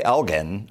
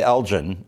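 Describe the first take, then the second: First: "Elgin" said EL-ghin, g as in "get"; hard g in "Elgin". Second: "Elgin" said EL-jin, g as in "gem"; soft g in "Elgin". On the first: Newcomer to Texas on town names, "Elgin" said EL-ghin. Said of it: "I still don't say". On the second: Newcomer to Texas on town names, "Elgin" said EL-jin. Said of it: "I say". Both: Shown as a demonstration.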